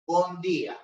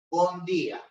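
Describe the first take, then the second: First: It is said in a European Portuguese accent. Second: The same.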